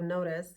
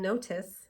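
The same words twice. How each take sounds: First: The middle t is a quick flap. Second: The middle t is a crisp, full t. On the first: The speaker calls it right. "instead of notice" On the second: The speaker calls it wrong. "if you're used to saying notice"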